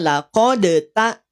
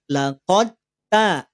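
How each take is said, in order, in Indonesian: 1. Bunyi d dilepas dengan pantulan sebelum t. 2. Bunyi d langsung melebur ke dalam t. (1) "Tidak dibaca laqad ta" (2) "langsung dileburkan pada huruf ta"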